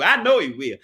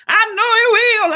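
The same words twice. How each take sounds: First: Said in the usual way. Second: High, loud preacher rise on "he"; preaching stress on "he"; preached. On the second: Shown as a demonstration. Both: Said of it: "I feel like preaching".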